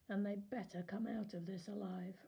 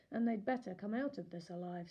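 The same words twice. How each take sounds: First: Said in the usual way. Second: A bit louder, firm warning. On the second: A narrator's reading. Lawyer warning the warden, firmly. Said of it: "Stanley's lawyer warned".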